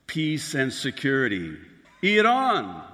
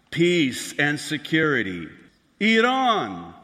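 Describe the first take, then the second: No difference in how they are said.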